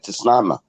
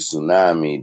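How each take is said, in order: First: The word begins with a T sound. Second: The word begins with an S sound. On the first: "They don't want you saying" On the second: "the T silent"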